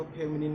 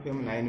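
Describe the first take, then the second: First: फेमिनिन with a short "-nin" ending; फेमिनिन, last syllable rhyming with "pin"; pronounced FEM-nin. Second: फेमिनाइन with a long "-nine" ending; फेमिनाइन, last syllable rhyming with "line"; pronounced FEM-nine. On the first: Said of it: "इसको फेमिनिन भी बोलते हैं". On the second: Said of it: "कुछ लोग फेमिनाइन भी बोलते हैं". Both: Shown as a demonstration.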